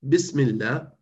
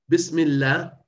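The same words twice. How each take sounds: No difference in how they are said.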